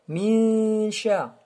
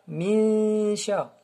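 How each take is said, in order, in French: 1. Le n se fond dans un bourdonnement nasal avant sh. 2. Le n se fond dans un bourdonnement nasal avant sh.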